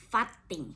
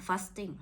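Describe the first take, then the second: First: "fasting" said the Northern Thai way, flat local vowels; "fasting" with a Phayao village accent. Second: "fasting" said with English stress on the first syllable; "fasting" in proper English. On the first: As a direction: say "fasting" like back home. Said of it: "ถ้าออกสำเนียงบ้านเฮาเนาะ". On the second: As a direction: pronounce "fasting" like a foreigner. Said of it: "แต่ถ้าภาษาฝรั่ง ภาษาฝรั่ง". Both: Shown as a demonstration.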